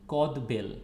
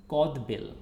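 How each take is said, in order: Both takes have the same delivery.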